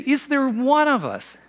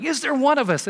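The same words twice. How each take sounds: First: Higher, slow mock sneer. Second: Higher mock sneer. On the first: Pharisees scoffing at their own council, mock sneer. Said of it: "when they say". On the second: Pharisees scoffing in the council room, mock sneer. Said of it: "they're like". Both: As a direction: lightly sneer the question.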